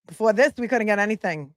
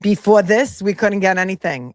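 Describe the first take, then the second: First: Said in the usual way. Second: Louder Before this in a Brooklyn twang; mock Brooklyn accent. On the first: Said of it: "No, that's Brooklyn". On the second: Vlogger imitates the clerk, lightly Brooklyn accent. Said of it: "that's a Fall River accent?".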